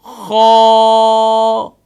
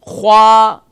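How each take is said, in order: First: An open vowel follows and is held at the end. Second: A rounded w-like glide follows the kh sound. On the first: The speaker calls it right. "यानी कि आखिर में आवाज जारी रहेगी क्योंकि आखिर में अलिफ है" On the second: The speaker calls it wrong. "यानी कि ख्वा के साथ वाव पढ़ते हैं"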